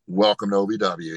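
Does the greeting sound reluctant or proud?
proud. It sounds proud and enthusiastic.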